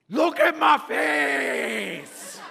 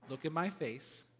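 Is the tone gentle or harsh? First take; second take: harsh; gentle. First: It is said in a harsh tone. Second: It is said in a gentle tone.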